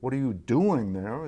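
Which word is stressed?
doing. The stress falls on the word doing. The question is about the activity. "It's about the activity"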